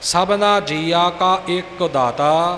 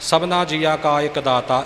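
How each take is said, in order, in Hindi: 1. शब्द ka और ek अलग-अलग रखे गए हैं। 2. शब्द ek जल्दी बोला जाता है और पड़ोसी शब्दों में घुल-मिल जाता है। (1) "का वखरा एक वखरा" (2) "असीं एक नूं बहुत घट तवज्जो दिंदे आ। ... इउं बोल जांदे हां"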